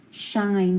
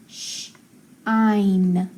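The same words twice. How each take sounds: First: Said in the usual way. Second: Sh, pause, then ein; sh and ein as separate sounds; sounded out. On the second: Shown as a demonstration. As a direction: split shine into sh ... ein. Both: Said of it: "it's gonna say".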